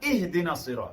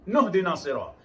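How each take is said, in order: First: It starts fresh with an 'ih' sound. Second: It is joined on, starting with 'nuh'. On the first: It is read at the start of the verse. "Di permulaan ayat atau pada kalimahnya" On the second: It is read linked to the previous word. "Dibaca wasal"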